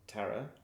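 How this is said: The name is said the American way. This is how the person says her own name. The speaker calls it right. "she's American and calls herself Tara"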